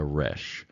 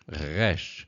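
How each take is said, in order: First: The R is a plain English-style R. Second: The R is made in the throat. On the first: "or you can just do an R" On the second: "the guttural is a re, re, resh, resh"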